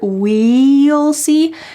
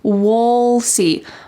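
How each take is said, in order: First: The word "we'll" is said fully and clearly. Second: The word "we'll" is reduced to a short "wool". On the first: "with a clear we'll see" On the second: "this reduced pronunciation and said wool"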